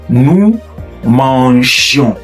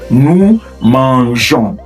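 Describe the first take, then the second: First: The g has a soft zh sound. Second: The same.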